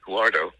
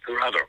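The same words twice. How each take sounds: First: "Huardo" said as WAR-doh; unsure name pronunciation. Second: "Jurado" as hoo-RAH-doh, stress on RA; corrected pronunciation. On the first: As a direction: say "Huardo" with a w glide, two beats. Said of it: "hope that's how you pronounce her name". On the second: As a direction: repeat "Jurado" carefully in three beats. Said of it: "sorry, say it again". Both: Real, not acted.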